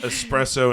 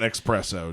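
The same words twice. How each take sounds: First: The word begins with an 'es' sound. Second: The word begins with an 'ex' sound. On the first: The speaker calls it right. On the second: The speaker calls it wrong.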